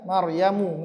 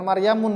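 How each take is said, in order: First: The name ends on a vowel, without n. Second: The name ends with an added n sound. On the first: The speaker calls it right. "nggak boleh tanwin" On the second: The speaker calls it wrong. "Bukan Maryamun ya"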